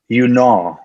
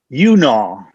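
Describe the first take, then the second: First: The stress is on the second syllable. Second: The stress is on the first syllable. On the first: The speaker calls it right. "I actually should put the um, emphasis on the second syllable there" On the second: The speaker calls it wrong. "I didn't get it quite right the first time"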